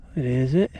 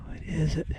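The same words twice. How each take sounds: First: Said in the usual way. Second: Whispered question; breathless treasure hunter. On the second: Real, not acted. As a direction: breathe it out in a hush. Hushed over the find.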